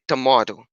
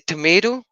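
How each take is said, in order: First: It is said with an English accent. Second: It is said with an American accent.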